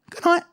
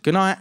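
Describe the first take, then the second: First: Suddenly high, squeaked farewell; awkward pitched-up goodbye; squeaky good night. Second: Said in the usual way. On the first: Acted. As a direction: lose your nerve in a tiny high voice. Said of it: "And I went". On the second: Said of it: "And I, I said".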